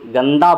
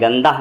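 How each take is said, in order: First: गंदा ending in an open 'aa'; h as alif. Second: गंदा said as 'gandah', h audible; sounded final h. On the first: Teacher showing the right form, 'gandaa' without h. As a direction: end गंदा on a clean long a. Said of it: "गंदा बोलते हैं". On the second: Teacher showing the rejected form, 'gandah' with h. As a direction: add a breathed h to the end of गंदा. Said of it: "गंदा नहीं बोलते हैं". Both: Shown as a demonstration.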